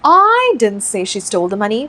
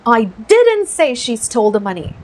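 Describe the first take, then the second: First: The stress falls on the word I. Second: The stress falls on the word didn't. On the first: Someone else said it. "आई पे focus डालते हैं" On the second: It was never said at all. "ये didn't पे focus लगाते हैं"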